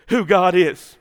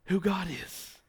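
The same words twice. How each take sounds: First: "who God is" proclaimed loud and falling; loud preaching. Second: Hushed. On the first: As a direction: thunder out "who God is" to the congregation. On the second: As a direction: whisper "who God is" as a prayer. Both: Acted.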